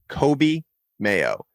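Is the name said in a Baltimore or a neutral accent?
neutral. The name is said in a neutral, non-local accent. "if you're going to pronounce it like you're not from Mount Washington"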